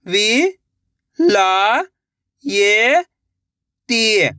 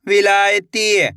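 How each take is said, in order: First: "विलायती" very slowly, syllables held apart; sounding out slowly. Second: Said in the usual way. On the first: Shown as a demonstration. Teacher sounding out a word for young readers. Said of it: "एक अक्षर का उच्चारण करके". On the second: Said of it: "लाके पढ़ना है".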